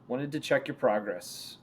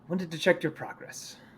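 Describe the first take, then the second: First: It is said in the speaker's ordinary voice. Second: It is said in a put-on character voice.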